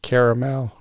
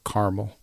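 First: Caramel said in three syllables, CARE-uh-mel. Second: Caramel squeezed to two syllables, CAR-mul. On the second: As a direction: say caramel as CAR-mul, dropping the middle vowel. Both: Shown as a demonstration. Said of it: "how do you say it?".

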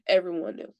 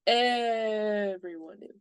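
First: Said in the usual way. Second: "Everyone" stretched long on the first syllable; slow, drawn-out stress on "Everyone"; emphatic EVERYONE. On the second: Real, not acted. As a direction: drag out "Everyone" slowly for emphasis.

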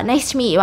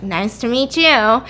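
First: Said in the usual way. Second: Put-on slow, drawn-out drunken greeting; stretched-out tipsy politeness, mimicked; drunk pretending normal. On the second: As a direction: greet him slowly, acting sober while drunk. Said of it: "I'm so drunk".

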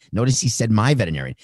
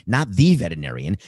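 First: "my" hit hard and falling; stress on MY. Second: "the" stressed with a rising tune. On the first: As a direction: punch "my" in "my veterinarian". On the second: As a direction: lean on "the", pitch going up. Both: Shown as a demonstration.

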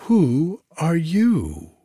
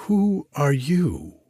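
First: "Who are you?" slow, high and louder; stretched-out astonished echo; echoed cry. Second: Slow, high astonished question; drawn-out demand to know; surprised cry. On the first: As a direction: courtiers echoing the princesses, even higher and louder. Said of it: "echoed all the courtiers". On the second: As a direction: princesses crying out at the stranger, slow and raised. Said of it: "cried the ninety-nine princesses". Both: A narrator's reading.

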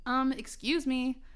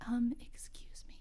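First: Said in the usual way. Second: Soft whispered excuse me; quiet. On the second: Acted. Reading her story aloud, redoing the line as a shy whisper. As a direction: redo it as a timid whisper. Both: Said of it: "I said quietly".

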